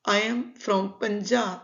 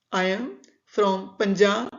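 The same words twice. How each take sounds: The two takes are said the same way.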